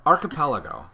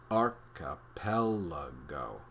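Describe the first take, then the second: First: Said in the usual way. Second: Archipelago drawn out very slowly, first and third syllables stressed, lower. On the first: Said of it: "Say it slowly". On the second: Shown as a demonstration. Teaching kids to say the word, slow stressed Archipelago. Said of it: "Say it slowly, emphasizing the first and third syllables".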